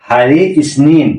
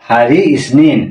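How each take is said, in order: The two takes are said the same way.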